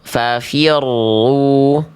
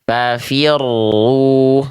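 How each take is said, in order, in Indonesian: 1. R digetarkan sedang, tidak kuat dan tidak samar. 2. R digetarkan sedang, tidak kuat dan tidak samar.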